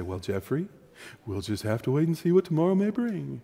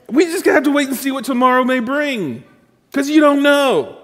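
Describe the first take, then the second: First: A patient mother putting her son off; mother's voice. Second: Mother's voice. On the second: Preacher repeating mom's line, high and hammed-up. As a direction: ham up the mother's stock answer. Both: Retold or imitated. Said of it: "And she would say".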